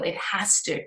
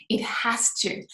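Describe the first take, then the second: First: Softer, sinking into self-reassurance; quiet reassurance. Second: Whispered, barely there. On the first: Host reassuring listeners, quiet and settled. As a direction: say it quietly, half to yourself. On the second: Host assuring herself again, in a whisper. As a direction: breathe it out as a whisper. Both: Real, not acted.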